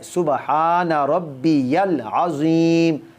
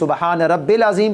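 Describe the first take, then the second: First: The middle word is said fully as 'rabbiyal'. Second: The middle word is clipped to 'rabbil'. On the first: The speaker calls it right. "ये सही वर्ड है" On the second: The speaker calls it wrong. "इससे आपकी नमाज ही नहीं होगी"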